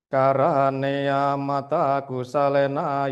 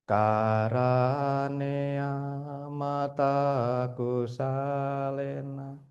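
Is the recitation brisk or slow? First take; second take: brisk; slow. First: It is recited firmly at a brisk pace. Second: It is recited very slowly and drawn out. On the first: The speaker calls it right. "tegas tanpa ragu-ragu" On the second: The speaker calls it wrong. "Terlalu lambat"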